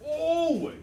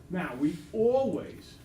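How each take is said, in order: First: Always shot up high and loud; stress on always. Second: Slow, leaning on always; stress on always. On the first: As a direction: punch always hard and high, like a siren. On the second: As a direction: draw out always and give it weight. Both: Shown as a demonstration. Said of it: "I can't emphasize that word enough".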